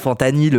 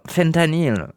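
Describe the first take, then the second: First: The word is said with a French accent. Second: The word is said with an American accent. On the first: The speaker sounds at home in France. The speaker calls it right. "c'est bon, fentanyl. On est, on est en France" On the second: The speaker sounds American-minded. The speaker calls it wrong. "vous êtes des ricains mentaux. Vous disiez, ouais, du fentanyl"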